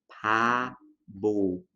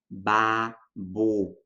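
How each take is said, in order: First: A weak P begins it, B between vowels. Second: Both consonants are pronounced as B sounds. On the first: "a gente tem a tendência de falar pabo" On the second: "babo com dois sons de B"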